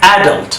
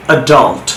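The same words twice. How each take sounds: First: অ্যাডাল্ট as "AD-ult", higher pitched; British front-stressed অ্যাডাল্ট; British pronunciation. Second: অ্যাডাল্ট as "uh-DULT"; American end-stressed অ্যাডাল্ট; American pronunciation. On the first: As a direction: stress the first syllable of অ্যাডাল্ট. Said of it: "কীভাবে ব্রিটিশে sound করে". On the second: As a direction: stress the second syllable of অ্যাডাল্ট. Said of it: "কীভাবে আমেরিকানরা sound করে". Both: Shown as a demonstration.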